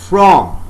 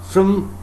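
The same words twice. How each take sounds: First: The word has a full, strong vowel. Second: The word has a reduced schwa vowel. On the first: "That is not a weak form. I am saying from" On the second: "So here we find the role of schwa sound"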